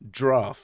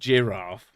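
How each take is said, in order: First: The word is squeezed into one syllable. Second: The word is said with two syllables. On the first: "like it's one syllable" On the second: "which is two"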